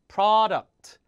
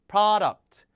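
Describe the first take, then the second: Both takes have the same delivery.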